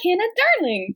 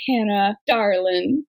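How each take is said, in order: First: High-pitched Midwestern "Hannah, darling"; Midwest accent. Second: Southern "darling", said low; Southern darlin'. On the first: Imitating how they address Hannah, Midwest accent. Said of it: "how they say it in a Midwest accent". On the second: Gently reproving Hannah over her ankle, Southern accent. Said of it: "we go, "Darlin," 'cause we're Southern". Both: Acted.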